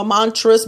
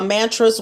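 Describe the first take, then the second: First: "mantras" with a broad AH; "mantras", first syllable opened to "mahn"; alternative pronunciation. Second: "mantras" with a flat A as in "man"; "mantras", first syllable rhyming with "can"; first pronunciation. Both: Shown as a demonstration. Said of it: "Some people say mantras".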